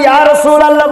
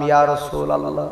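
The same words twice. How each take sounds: First: High, louder call of the name; raised invocation. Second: Quiet, softer invocation; soft devout utterance. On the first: Preacher retelling the barber shop, calling the name out high. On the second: Preacher recalling his words in the barber's chair, softly. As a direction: murmur the name softly, devoutly. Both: Retold or imitated.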